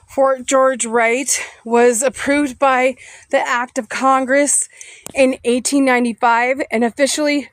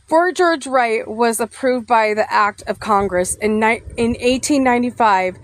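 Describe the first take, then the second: First: Reading while out of breath after walking; breathless, catching air between phrases. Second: Said in the usual way. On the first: Real, not acted. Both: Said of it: "sorry, I'm out of breath".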